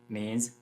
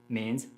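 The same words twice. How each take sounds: Both takes have the same delivery.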